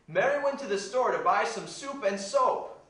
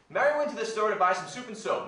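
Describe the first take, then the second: First: The sentence is said at a normal pace. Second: The sentence is said at a fast pace.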